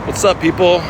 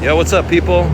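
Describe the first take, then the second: First: High call out to strangers across the street; friendly high holler at the bus; yelling to a bus. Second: High, loud holler across the road; loud friendly shout at passersby; yelling at a bus. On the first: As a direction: shout it out to the passing bus. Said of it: "when I yell at those buses". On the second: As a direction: belt it to get the bus's attention. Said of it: "Not that loud". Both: Real, not acted.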